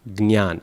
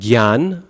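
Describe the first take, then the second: First: It begins with g, then n, then y. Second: It begins with g then y, with no nasal. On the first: This is how South Indians say it. The speaker calls it right. "the South Indian pronunciation is probably the closest" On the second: This is how Hindi speakers say it. The speaker calls it wrong. "Hindi speakers do gyanam, gyan"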